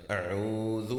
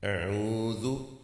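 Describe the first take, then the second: First: اعوذ with clear ع and ذ; final correct form; corrected pronunciation. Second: اعوذ drawn out slowly with a rise; teacher demo; slow repeat-after-me. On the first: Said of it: "اور پھر ذال ہے". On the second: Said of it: "میرے ساتھ آپ ارشاد فرمائیے". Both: Shown as a demonstration.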